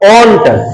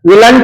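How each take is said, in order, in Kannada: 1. ಇದನ್ನ ಒಂದು ಉಚ್ಚಾರಾಂಶ ಆಗಿ ಹೇಳ್ತಾರೆ, 'wont'. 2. ಇದನ್ನ ಎರಡು ಉಚ್ಚಾರಾಂಶ ಆಗಿ ಹೇಳ್ತಾರೆ, 'will-ent'. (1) "will plus not ಓಂಟ್" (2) "ವಿಲಂಟ್ ಅನ್ನಬಾರ್ದು"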